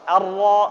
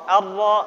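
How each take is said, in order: Both takes have the same delivery.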